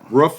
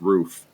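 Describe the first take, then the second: First: The word has a Pennsylvania-style vowel. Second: The word has a standard vowel. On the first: It is a regional way of saying the word. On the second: It is the usual way of saying the word.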